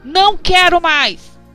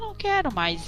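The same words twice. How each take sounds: First: It is said in a harsh, stern tone. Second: It is said in a gentle, calm tone. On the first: The listeners feel scolded and uneasy. The speaker calls it wrong. "todo mundo já vai se arrepiar" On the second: The listeners feel addressed with care. The speaker calls it right. "não é diferente? ... A energia é diferente"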